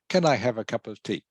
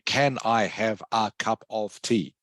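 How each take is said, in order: First: The word 'of' is said weakly and reduced. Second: The word 'of' is said fully and clearly. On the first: The speaker calls it right. "You say, ... pronounced weakly" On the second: The speaker calls it wrong. "You don't say"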